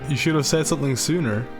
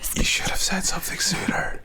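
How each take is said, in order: First: It is said in a normal voice. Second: It is said in a whisper.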